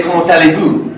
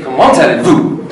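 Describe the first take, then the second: First: "Comment allez-vous?" with a rising French lilt; French tune. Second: "Comment allez-vous?" low, flat and falling; wrong flat French. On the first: Teacher showing the French tune for "Comment allez-vous?". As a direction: let "allez-vous" lift at the end. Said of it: "we would say". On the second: Teacher mocking the wrong flat "Comment allez-vous?". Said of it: "We would not say". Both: Shown as a demonstration.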